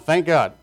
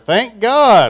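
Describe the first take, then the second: First: It is said at normal, quiet volume. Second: It is said noticeably louder.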